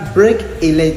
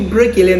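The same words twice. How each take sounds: First: The words are said separately, without linking. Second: The k links smoothly into the following vowel. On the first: The speaker calls it wrong. "on ne dit pas break a leg" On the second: The speaker calls it right. "on dit break a leg ... il fait la liaison"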